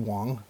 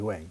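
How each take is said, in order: First: The vowel sounds like the one in 'song'. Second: The vowel sounds like the one in 'bang'. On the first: The speaker calls it right. "but it's Andy Wong" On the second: The speaker calls it wrong. "so I always thought it was Andy Wang"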